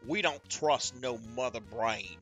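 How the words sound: It is read in a put-on redneck accent.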